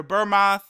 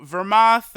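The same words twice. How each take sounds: First: "Burmoth" begun with a B sound; alternative pronunciation. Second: "Vermoth" begun with a V sound; alternative pronunciation. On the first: Host offering another name reading, "Burmoth" with a B. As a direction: say "Burmoth" opening on B. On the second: Host unsure of the god's name, "Vermoth" with a V. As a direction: say "Vermoth" slowly, opening on V. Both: Shown as a demonstration. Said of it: "however you wanna say".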